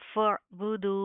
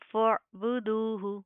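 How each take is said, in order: First: The word ends with a bare 'h' sound. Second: The word ends with a full 'hu' syllable. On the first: The reader stops on this word. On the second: The reader continues without stopping.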